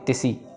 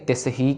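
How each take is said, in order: First: The h sound is dropped, syllables run together. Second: The h sound is clearly pronounced between syllables. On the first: The speaker calls it wrong. "ना कि तिसी" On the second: The speaker calls it right. "तिस ही कहना है"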